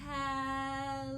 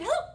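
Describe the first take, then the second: First: It is said very slowly. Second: It is said very fast.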